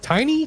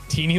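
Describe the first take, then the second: First: The first vowel sounds like 'eye'. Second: The first vowel sounds like 'ee'. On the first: The speaker calls it wrong. "I'm sorry for uh, pronouncing it wrong" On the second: The speaker calls it right. "Teeny like martini. That's right"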